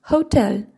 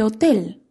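First: "hotel" said the English way, with breathed H and gliding O; English pronunciation. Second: Said in the usual way. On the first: Shown as a demonstration. English teacher shows learners how transparent words differ, "hotel" in English pronunciation. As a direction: say "hotel" as in English, hoh-TEL. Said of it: "En inglés las pronunciamos". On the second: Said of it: "no se pronuncian de la misma forma".

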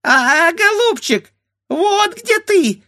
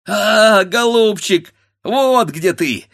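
First: Very high, squeaky mimicking bird voice; squeaky bird beak. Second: Higher, louder, triumphant; gleeful cry. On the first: A bird beak mocking the grandfather, squeaking. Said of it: "запищал птичий нос". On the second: Grandfather finding the pot, crying out gleefully. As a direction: crow with delight at the find. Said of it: "вскрикнул дед". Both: A narrator's reading.

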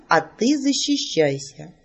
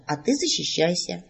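First: Slow, teasing challenge with a rise on ты; mage's challenge. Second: Said in the usual way. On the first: Acted. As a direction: dare her, stretching each word. Mage proposes a duel. (маг медленно и с вызовом предлагает защищаться)

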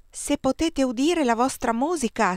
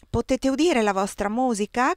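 First: Put-on boy pitches "udire" high and clear, falling after; ringing high voice. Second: Put-on lilting higher child's question with "udire" rising; boy's sing-song question to the guest. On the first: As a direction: ring it out as high as he can. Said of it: "squillò più alta che poteva". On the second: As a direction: hum the question innocently like a small boy. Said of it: "canterellò qualcuno". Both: A narrator's reading.

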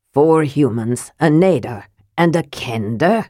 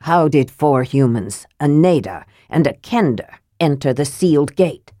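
First: A dwarf lord sneering at the newcomers; mild disgust on Kender; distaste. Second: A dwarf lord demanding the strangers explain themselves; a mild stern demand. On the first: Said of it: "as though it tasted bad". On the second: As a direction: lower and firm, asking for an answer. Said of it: "Armen demanded". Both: Acted.

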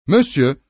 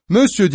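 First: A first call of "Monsieur", raised but not full; a clerk's first call across the room. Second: "monsieur" yelled much higher and louder; the second call, a full shout of "monsieur". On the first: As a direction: call "Monsieur" to get his attention. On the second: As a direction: bellow "monsieur" after him down the stairs. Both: A narrator's reading. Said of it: "diye bağırdı küçük haylaz".

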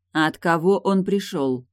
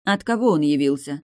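First: Slow, calm repeated question; cool, steady repeat of the question. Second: Said in the usual way. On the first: Acted. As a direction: repeat it calmly, no rush. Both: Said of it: "спокойно повторила Тильда".

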